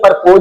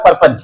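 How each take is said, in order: First: The second syllable is a full 'pose'. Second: The second syllable is a short, reduced 'pus'. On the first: The speaker calls it wrong. "परपोज नहीं होता" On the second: The speaker calls it right.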